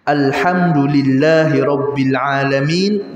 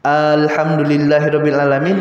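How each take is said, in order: First: The opening A vowel is short. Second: The opening A vowel is drawn out long. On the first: It praises God as Lord of the worlds. The speaker calls it right. "yang harusnya" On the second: It asks whether God is Lord of the worlds. The speaker calls it wrong. "kalau dibaca A-nya panjang"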